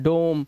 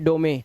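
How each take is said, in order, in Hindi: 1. अंतिम e silent है, शब्द एक सिलेबल का है। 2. अंतिम e एक सिलेबल के रूप में बोला जाता है। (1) "इसे ओ से पढ़ना है" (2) "अब ऐसा नहीं पढ़ सकते आप"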